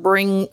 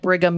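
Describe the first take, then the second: First: An n sound comes before the g. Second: No n sound comes before the g. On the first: The speaker calls it wrong. "They would want to put an N in there" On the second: The speaker calls it right. "no, Brigham spelled like Brigham Young"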